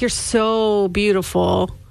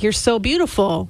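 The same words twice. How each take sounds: First: It is said in an adoring, worshipful tone. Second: It is said as a plain compliment.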